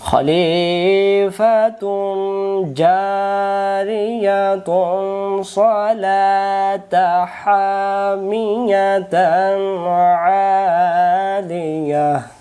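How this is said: Read in one breath, linking words with full endings. "এবার এখানে দম সারবো না"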